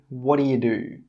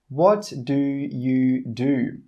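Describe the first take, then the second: First: The phrase is said very quickly, words run together. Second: The phrase is said at a slow, careful pace.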